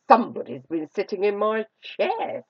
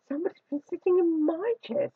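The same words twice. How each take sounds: First: Father Bear's voice is deep, gruff and growling. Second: Mother Bear's voice is mellow and middle-pitched.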